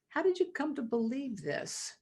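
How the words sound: The question sounds open and curious. The asker wants to learn from the other person. "an inquisitive, curious"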